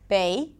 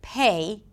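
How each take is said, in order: First: The p is released without a puff of air. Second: The p is released with a puff of air. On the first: The speaker calls it wrong. "sometimes they will underpronounce the P" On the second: The speaker calls it right. "instead of pay"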